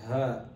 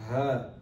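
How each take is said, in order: The two takes are said the same way.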